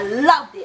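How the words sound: It is said with strong, intense emphasis. The feeling is deep, all-out love. "capital letters"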